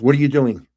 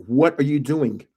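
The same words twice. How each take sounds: First: Quick, louder retold objection; quick mock-indignant question; sharp challenge. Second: WHAT set apart, slower retold question; measured, insistent mock objection; insistent repeat. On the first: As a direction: imitate a startled ex demanding an explanation. Ex challenges him in retold quarrel. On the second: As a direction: stretch out "What are you doing" in disbelief.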